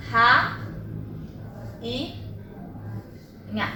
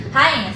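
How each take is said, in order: First: "ra... i... nha", long gaps, trailing softer; syllable by syllable. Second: Said in the usual way. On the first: Shown as a demonstration. Teacher writing out rainha as an example, syllable by syllable. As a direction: split "ra, i, nha" into three isolated syllables. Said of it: "Quando eu separo a sílaba de rainha".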